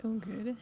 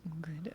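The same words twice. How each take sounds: First: Said in the usual way. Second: Breathy hushed "Oh, good."; just a whisper of "Oh, good.". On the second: Real, not acted. Whispered then repeated aloud.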